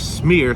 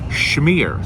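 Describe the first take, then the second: First: The word starts with a plain s sound. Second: The word starts with an sh sound. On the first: The speaker calls it wrong. "don't say smear" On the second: The speaker calls it right. "say schmear"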